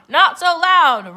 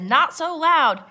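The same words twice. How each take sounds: First: Very loud, high pirate roar. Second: High, slow, emphatic hush. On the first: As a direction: roar the echo as a whole crew. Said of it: "roared the pirates". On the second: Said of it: "I said". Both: A narrator's reading.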